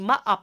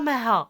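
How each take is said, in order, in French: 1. Le son h est muet au milieu. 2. Le son h est prononcé au milieu. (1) "on dit Maha parce que le H, on le, on le prononce pas en français" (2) "On ne dit pas Maha"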